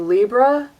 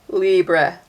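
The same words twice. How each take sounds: First: It ends with an 'ah' sound, like Libra. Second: It ends with an 'eh' sound, like French. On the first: "like the astrological sign Libra" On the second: "like with an E"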